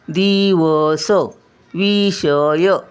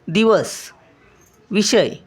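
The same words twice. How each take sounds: First: Each syllable is said slowly and separately. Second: The words flow quickly with a short first vowel. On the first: It helps in recognizing each letter. "मी आता प्रत्येक अक्षर लावून लावून वाचलं" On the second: This is the actual spoken pronunciation. "पहिली वेलांटी असते त्याचा पै पटकन उच्चार करायचा"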